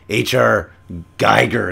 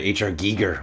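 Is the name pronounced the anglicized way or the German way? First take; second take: anglicized; German. First: The surname is pronounced the anglicized way. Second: The surname is pronounced the German way. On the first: The speaker calls it wrong. "instead of" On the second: The speaker calls it right. "which is the proper pronunciation of the German phonetics"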